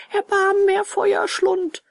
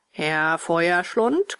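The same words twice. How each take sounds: First: Tearful pleading. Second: Slow, drawn-out mocking echo with a rise; gruff retort. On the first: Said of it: "weinte und flehte". (hohes, flehendes Jammern) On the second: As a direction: throw the name back gruffly, stretched out. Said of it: "gab dieser barsch zurück". (barsch und gedehnt zurückgeben) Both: A narrator's reading.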